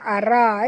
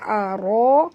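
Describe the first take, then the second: First: The r sound is light and thin. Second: The r sound is heavy and thick. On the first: The speaker calls it wrong. "jangan baca ara eh" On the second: The speaker calls it right. "ra mat asli tebal"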